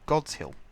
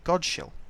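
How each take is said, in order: First: The s and h are sounded separately. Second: The s and h blend into one sh sound. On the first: The speaker calls it right. "it's called Godshill" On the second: The speaker calls it wrong. "I used to call it Godshill. But no"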